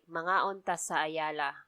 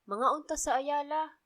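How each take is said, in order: First: The sentence is said at a normal pitch. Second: The sentence is said at a higher pitch. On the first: It states a plan to eat there. "It's like" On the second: It invites someone to eat there. "the invitation, ... it's a bit high pitch if you're inviting somebody"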